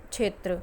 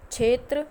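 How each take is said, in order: First: क्षेत्र with full क्ष, falling; क्षेत्र said correctly; correct pronunciation. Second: क्षेत्र as "छेत्र", louder and rising; क्षेत्र as the wrong example, lifted; wrong pronunciation. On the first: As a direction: give क्षेत्र the clear क्ष cluster, falling tone. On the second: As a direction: say क्षेत्र with छ instead of क्ष. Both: Shown as a demonstration. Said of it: "छ लिखना है या क्ष लिखना है".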